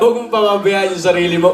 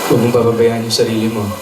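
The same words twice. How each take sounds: First: It is said in a cheerful, lively tone. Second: It is said in a worried, emotional tone. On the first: The speaker is in a happy mood. "Yun po, masaya, Lola" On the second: The speaker is anxious about the listener. "Yung emosyon mo, yung nagbabagabag"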